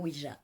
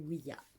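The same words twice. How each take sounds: First: The second syllable is not pronounced 'ya'. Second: The second syllable is pronounced 'ya'. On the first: This is the form popularized by films. The speaker calls it wrong. "C'est pas Ouija, c'est une mauvaise prononciation" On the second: It joins the French and German words for yes. The speaker calls it right. "c'est oui en français et ya qui veut dire oui en allemand"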